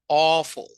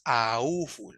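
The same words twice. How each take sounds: First: The first vowel is one open O sound. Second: The first vowel is spelled out as A-U. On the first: The speaker calls it right. "el sonido de O, como que si fuera un bostezo medio abierto" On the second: The speaker calls it wrong. "No es awful"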